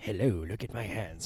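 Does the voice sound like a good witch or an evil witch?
evil witch. It is said in a sinister evil-witch voice.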